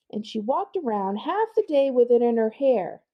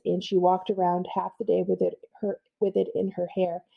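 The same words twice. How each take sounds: First: Higher voice reading the speech bubble; character voice. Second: Said in the usual way. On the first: Acted. Librarian reads the bubble in a higher kid voice. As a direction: voice the gossiping kid. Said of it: "I'm just gonna pause". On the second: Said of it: "I wanna point out".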